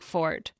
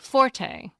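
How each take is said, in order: First: The word is said as one syllable. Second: The word is said as two syllables. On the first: This is the traditional pronunciation. "was traditionally pronounced like fort" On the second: This is the pronunciation most Americans now use. "most Americans now say forte"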